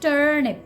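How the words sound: The R sound is pronounced. "If you're working on your American pronunciation, then you have to pronounce R"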